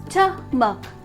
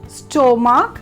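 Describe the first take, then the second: First: It sounds like 'stuh-muck'. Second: It sounds like 'sto-mark'. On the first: The speaker calls it right. "my dear friends, it will be stomach" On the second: The speaker calls it wrong. "Mainly how you will pronounce it as stomach"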